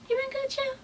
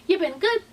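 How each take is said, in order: First: Much higher and softer, a playful mock voice; high put-on voice. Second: Said in the usual way. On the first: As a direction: repeat the greeting high and hushed, teasing. Greeting repeated in put-on voice.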